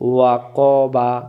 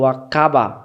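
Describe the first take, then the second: First: The q sound is heavy and thick. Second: The q sound is light, like a k. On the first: The speaker calls it right. "কফ জবর ক" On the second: The speaker calls it wrong. "এটা কাফ হয়ে গেল এবং ইস্তিলার নিয়মটা ভুল হয়ে গেল"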